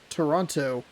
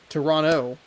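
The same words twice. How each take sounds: First: The second T is clearly pronounced. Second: The second T is left out. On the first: The speaker calls it wrong. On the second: The speaker calls it right.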